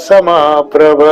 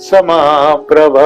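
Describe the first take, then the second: Both takes have the same delivery.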